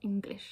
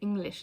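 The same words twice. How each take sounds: First: The ng is followed by a hard g. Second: The ng is said without a following g. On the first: This is how it should be said. The speaker calls it right. "not English" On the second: This is how German speakers say it. The speaker calls it wrong. "they would say English"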